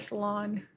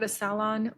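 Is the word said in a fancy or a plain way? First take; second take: plain; fancy. First: The word is said in a plain, ordinary way. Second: The word is said in a fancy, affected way. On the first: The speaker sounds ordinary. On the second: The speaker sounds pretentious.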